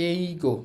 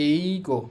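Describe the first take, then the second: Both takes have the same delivery.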